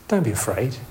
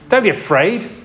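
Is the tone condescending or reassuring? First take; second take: reassuring; condescending. First: The tone is gentle and reassuring. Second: The tone is condescending and belittling. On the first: The speaker offers comfort and presence. The speaker calls it right. "you can change the tone of voice" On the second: The listener is being treated as foolish. The speaker calls it wrong. "condescending kind of your stupid kind of voice"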